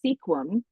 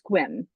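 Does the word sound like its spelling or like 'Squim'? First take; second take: like spelling; like Squim. First: The name is read out the way it is spelled. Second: The name is said as one short syllable, 'Squim'. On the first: The speaker calls it wrong. "trying to pronounce it the way that it is" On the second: The speaker calls it right. "pronounced Squim"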